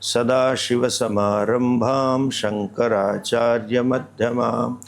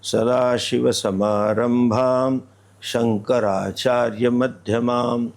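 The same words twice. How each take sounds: First: The phrase runs on in one breath without pausing. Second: There is a pause in the middle of the phrase. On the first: The speaker calls it right. "बीच में रुकना नहीं है, एक श्वास में चलना है।" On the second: The speaker calls it wrong. "आप कैसा बोलते हैं?"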